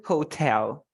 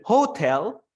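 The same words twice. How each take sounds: First: "hotel" with TEL carrying the stress; stress on second syllable. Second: "hotel" with HO punched, tel weak; stress on first syllable. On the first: Teacher asks which is right, "hotel" stressed on TEL. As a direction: keep HO light, lean on TEL in "hotel". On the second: Teacher asks which is right, "hotel" stressed on HO. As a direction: wrongly lean on the HO of "hotel". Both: Shown as a demonstration. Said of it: "This is syllable stress".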